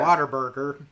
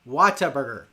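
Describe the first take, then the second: First: The first part sounds like the word water. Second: The first part sounds like the word what.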